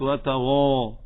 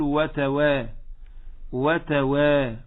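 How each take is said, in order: First: The end of وتغا darkened to a thick "waw"; heavy waw. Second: وتوا with a thin, light "wa-waa"; light waw. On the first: Teacher shows what it is not, heavy waw. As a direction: say وتغا with a heavy, rounded long vowel. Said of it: "وليست". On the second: Teacher correcting students, light waw in وتوا. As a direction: keep the long وا of وتوا light and open. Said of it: "تقول". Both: Shown as a demonstration.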